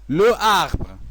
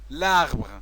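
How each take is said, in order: First: The article's vowel is pronounced separately before the noun. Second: The article's vowel is dropped and joined to the noun. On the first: The speaker calls it wrong. "c'est faux" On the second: The speaker calls it right. "c'est vrai"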